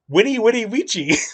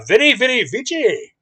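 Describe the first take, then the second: First: The words begin with a W sound. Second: The words begin with a V sound. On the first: This is the original Latin pronunciation. "in the actual Latin, the way it's pronounced, the V is a W" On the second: This is how English speakers usually read it. "It sounds okay if you're like"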